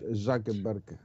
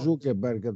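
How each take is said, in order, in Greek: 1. Το πρώτο φωνήεν είναι ήχος 'a'. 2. Το πρώτο φωνήεν είναι ήχος 'oo'. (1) "προφέρεται στα αμερικάνικα" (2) "το διαβάζουμε εμείς"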